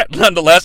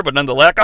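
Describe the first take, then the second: First: Laughing through the word. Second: Said in the usual way. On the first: Real, not acted. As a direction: says it with a laugh. Repeated word, laugh on retake.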